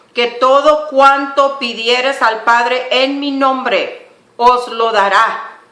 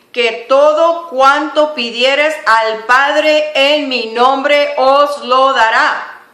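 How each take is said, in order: No difference in how they are said.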